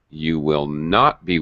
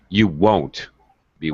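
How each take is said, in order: First: The words will not are said in full. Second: The words will not are contracted to won't. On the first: The speaker calls it wrong. "I would never say you will not be waiting" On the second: The speaker calls it right. "In normal conversational English, we're going to use the contractions"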